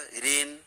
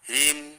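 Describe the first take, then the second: First: It ends in an n sound, lips open. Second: It ends in an m sound, lips closed. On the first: The speaker calls it wrong. "ह्रीन तो मुंह खुला रह गया" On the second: The speaker calls it right. "ह्रीम तो मुंह बंद हो गया"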